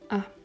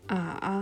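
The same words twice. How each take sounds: First: The pitch is short and unmarked. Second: The pitch falls and then rises. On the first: "ein neutraler Ton, also keine besondere Betonung" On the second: "zuerst fallend und dann steigend"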